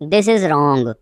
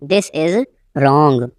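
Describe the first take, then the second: First: Said in the usual way. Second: Teacher setting "wrong" apart, falling; broken-up repeat. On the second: Shown as a demonstration. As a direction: pause before "wrong".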